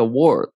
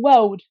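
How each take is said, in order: First: World with a full American R; world, R clearly sounded. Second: World with no R, like wawd; British world. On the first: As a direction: say world with the R rolled in, American style. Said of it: "Como que você fala mundo em inglês". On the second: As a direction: drop the R in World, British style. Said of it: "o britânico, ele fala como?". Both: Shown as a demonstration.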